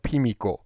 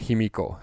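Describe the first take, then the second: First: The name begins with a P sound. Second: The name begins with an H sound. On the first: This is the older, classical form of the name. "Pimiko is the old, the classical pronunciation of it" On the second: This is an alternative, non-classical form of the name. "sometimes called Himiko as well"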